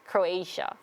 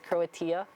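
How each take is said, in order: First: It is said with the standard English pronunciation. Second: It is said with a Korean-style pronunciation. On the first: The speaker calls it right. "but it was actually Croatia" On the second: The speaker calls it wrong. "that's how Koreans pronounce it"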